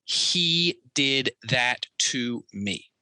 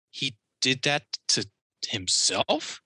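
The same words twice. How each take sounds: First: "He did that to me." said slow and deliberate, the tune falling at the end; a slow statement, each word placed, ending down on "me"; flat statement. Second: "He did that to himself?" slow, the tune going up at the end on "himself"; rising question. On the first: Retelling the woman's core sentence, slow falling statement. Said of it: "I'm gonna say that one more time". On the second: The woman trying out her new sentence, slow rising question. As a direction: ask it slowly, lifting the end into a question. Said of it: "It goes up at the end. It's a question".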